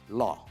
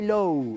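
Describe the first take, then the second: First: The vowel sounds like 'aw'. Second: The vowel sounds like 'oh'. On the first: The speaker calls it right. "it's law" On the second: The speaker calls it wrong. "Don't say low"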